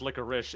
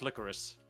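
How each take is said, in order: First: The word ends with an 'sh' sound. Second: The word ends with an 's' sound. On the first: The speaker calls it wrong. "it's not actually pronounced licorice" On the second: The speaker calls it right. "It's pronounced licorice"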